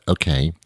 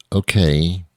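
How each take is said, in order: First: Softer flat okay; old lady's okay, repeated. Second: Put-on old lady's okay. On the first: Retold or imitated. Quoting the older lady at the register, softer okay. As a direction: echo her quiet okay. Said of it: "That's how she said". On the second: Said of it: "she actually says".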